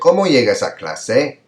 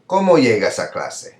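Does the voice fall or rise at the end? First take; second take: rise; fall. First: The pitch rises at the end. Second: The pitch falls at the end. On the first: "And the pitch went up at the end, that'd be fine" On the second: "so it kind of goes down"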